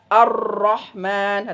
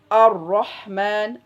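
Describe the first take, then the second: First: The r is trilled strongly and repeatedly. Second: The r is trilled only subtly. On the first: The speaker calls it wrong. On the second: The speaker calls it right. "dia harus disamarkan"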